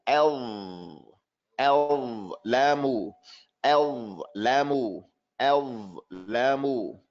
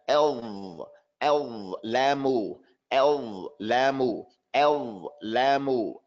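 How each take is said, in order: No difference in how they are said.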